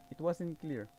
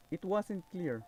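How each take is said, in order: Both takes have the same delivery.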